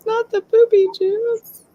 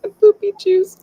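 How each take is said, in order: First: The poopy juice with poopy hit high; stress on poopy. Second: The poopy juice with juice hit high and loud; stress on juice. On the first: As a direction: correct it by punching poopy. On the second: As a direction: land hard on juice, pitched up. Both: Retold or imitated. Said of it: "what we used to call the podcast poopy juice".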